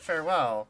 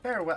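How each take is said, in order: First: The stress is on the second syllable. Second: The stress is on the first syllable. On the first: It is a plain goodbye. The speaker calls it right. "like farewell, like goodbye" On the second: It sounds like telling their well to fare. The speaker calls it wrong. "her emphasis is on the wrong part of the word"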